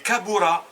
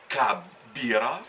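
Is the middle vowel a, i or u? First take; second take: u; i. First: The middle vowel is u. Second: The middle vowel is i. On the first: The speaker calls it right. "A ou A" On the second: The speaker calls it wrong. "ni kabira"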